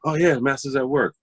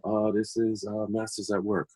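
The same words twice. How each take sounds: First: Higher, brighter "Oh, yeah" of pleasure; delighted recognition. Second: Softer, trailing mumble over the sleeve; quiet reading of a label. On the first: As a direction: greet the record like an old friend. Recognizing record while tidying. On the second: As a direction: read it half to yourself. Reading record labels while tidying. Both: Retold or imitated.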